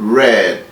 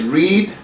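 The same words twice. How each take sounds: First: The vowel sounds like the word 'red'. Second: The vowel does not sound like 'red'. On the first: It is the past participle. "suena como eh, algo así como rojo, también como red" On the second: It is the present tense. "en presente es read"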